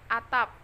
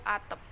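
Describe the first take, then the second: First: The last vowel is a clear 'a'. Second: The last vowel is an 'e' sound. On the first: This is the standard form. The speaker calls it right. "dalam bahasa baku" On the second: This is a regional, non-standard form. The speaker calls it wrong. "dalam bahasa tidak baku"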